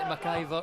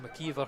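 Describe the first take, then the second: First: The middle vowel sounds like 'eye'. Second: The middle vowel sounds like 'ee'. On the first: The speaker calls it wrong. "McIver's just it rolls off my tongue" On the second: The speaker calls it right. "McKeever, I should say"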